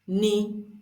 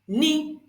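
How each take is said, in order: First: The syllable is said on a mid pitch. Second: The syllable is said on a high pitch. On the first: "we have the middle tone" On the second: "The third one is the high tone"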